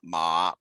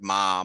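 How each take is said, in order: First: The pitch dips low then rises. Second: The pitch stays high and level. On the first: "a falling rising tone" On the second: "a high flat tone"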